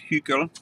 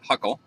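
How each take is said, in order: First: The name is said with a German pronunciation. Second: The name is said with an American pronunciation. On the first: "if you were German, you would pronounce this" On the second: "in America, we call it"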